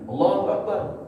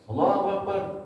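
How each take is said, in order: The two takes are said the same way.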